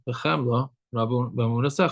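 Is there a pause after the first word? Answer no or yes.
yes. There is a pause after the first word. Pity belongs to the giving back of the soul. The speaker calls it right. "one should make a separation between the word of Chemla and the word Rabba"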